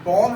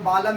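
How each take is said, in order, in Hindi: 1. L silent है, बोला नहीं जाता। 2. L बोला जाता है, उसके साथ एक अतिरिक्त स्वर आता है। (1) "इसको हम बॉम्ब पढ़ते हैं क्योंकि एम से पहले आया हुआ है" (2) "कुछ लोग बालम भी बोल देते हैं"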